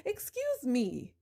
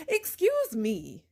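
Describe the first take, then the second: First: Slow, drawn-out "excuse me", mock offended; sarcastic excuse me. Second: Slow, drawn-out "Excuse me" with mock offense; sarcastic excuse me. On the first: Repeating it to the in-laws, slow and sarcastic. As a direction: drag "excuse me" out, rising in mock disbelief. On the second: Answering the in-laws who blame her, slow sarcastic disbelief. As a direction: stretch "Excuse me" out slowly, dripping sarcasm.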